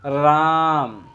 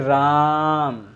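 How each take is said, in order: Both takes have the same delivery.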